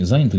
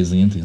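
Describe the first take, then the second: First: "заняты" stressed on the first syllable, ЗА. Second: "заняты" questioned with stress off the first syllable; stress moved later. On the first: Host checking the correct Russian stress, "заняты" with first-syllable stress. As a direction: hit ЗА at the start of "заняты". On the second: Host offering the doubtful alternative, "заняты" with later stress. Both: Shown as a demonstration. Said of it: "как правильно ударение".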